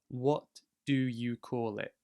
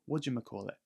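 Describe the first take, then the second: First: Each word is said separately and clearly. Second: The words are blended quickly into one word. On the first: "it comes from the phrase" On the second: "you're saying it very quickly"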